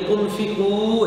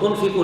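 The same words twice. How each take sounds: First: The final vowel is stretched long. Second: The final vowel is short, not stretched. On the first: The speaker calls it right. "तुन्फिकू है, क्योंकि वाव के ऊपर जज़्म है" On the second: The speaker calls it wrong. "तुन्फिकू नहीं है"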